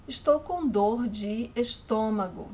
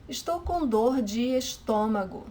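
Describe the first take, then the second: No difference in how they are said.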